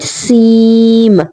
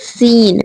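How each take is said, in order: First: The n sound is dropped, ending in m. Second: The letter ends with a clear n sound. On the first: The speaker calls it right. "You have to say seem, ... noon sound is excluded" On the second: The speaker calls it wrong. "not to be pronounced as seen, ... it has n like sound at the end"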